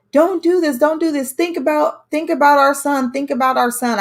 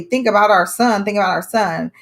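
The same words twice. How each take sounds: First: High, pleading cries of don't do this; desperate pleading. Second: Said in the usual way. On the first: Retold or imitated. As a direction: beg him to spare her for their son's sake. Girlfriend begging him to stop. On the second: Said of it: "I just kept hearing her say".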